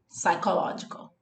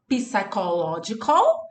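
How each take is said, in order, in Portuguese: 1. O P inicial é mudo. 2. O P inicial é pronunciado em voz alta. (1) "A gente diz psychological" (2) "A gente não diz psychological"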